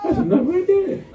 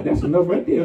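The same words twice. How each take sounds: First: High, loud repeat; preacher repeating his point to the church, shouted; emphatic shout. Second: Chuckling through it; preacher amused, telling the church it is enough; laughing. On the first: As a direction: drive it home loudly. Preacher repeats line, louder and higher. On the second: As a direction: laugh the words out. Preacher repeats line, first laughing. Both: Real, not acted.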